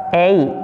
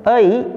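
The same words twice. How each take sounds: First: "ei" as ay, rhyming with day; higher, clear "ei" sounding like ay; correct ei reading. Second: "ei" starting on uh, gliding to i; "ei" with a schwa onset; spelled-out schwa. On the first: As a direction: glide "ei" from open eh to i. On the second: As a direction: say "ei" as uh-ee, higher. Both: Shown as a demonstration.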